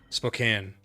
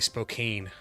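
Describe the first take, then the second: First: It is said the way locals say it. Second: It is said the way outsiders say it. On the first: The speaker calls it right. "we have a town called uh" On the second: The speaker calls it wrong. "people who aren't from Washington they say Spokane"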